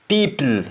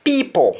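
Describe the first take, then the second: First: Said in the usual way. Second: "People" ending in o, said pipo; Jamaican le ending. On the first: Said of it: "words that end with L E". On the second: Shown as a demonstration. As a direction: end "People" on an o. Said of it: "L E is pronounced as though it is O".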